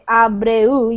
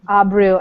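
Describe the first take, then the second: First: Each sound is said fully, Spanish style. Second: The sounds are blended, English style. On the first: "in Spanish you would say abreu, you would say more of each of the sounds" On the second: "in English when I'm reading it, it's just mister Abreu"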